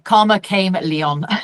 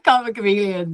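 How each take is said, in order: First: The last word sounds like 'came Leon'. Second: The last word sounds like 'chameleon'. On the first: The speaker calls it wrong. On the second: The speaker calls it right.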